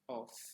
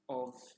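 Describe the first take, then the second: First: The word does not end with a V sound. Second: The word ends with a V sound. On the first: The speaker calls it wrong. "não se lê of" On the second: The speaker calls it right. "mas sim of, som de V"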